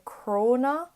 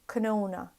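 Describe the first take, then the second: First: The N after the C sounds like R. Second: The N after the C sounds like N. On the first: "So I would say crona" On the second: "instead of canona"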